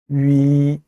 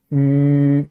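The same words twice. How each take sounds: First: 위 gliding from rounded lips into ee; mistaken diphthong. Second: 위 as a long level ü, no glide; same start to end. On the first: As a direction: show the faulty 위 that ends in ee. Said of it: "하게 되면 틀린 발음이 되는 거예요". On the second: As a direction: hold 위 rounded and identical throughout. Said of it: "시작과 끝을 똑같이 위 이렇게 발음합니다". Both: Shown as a demonstration.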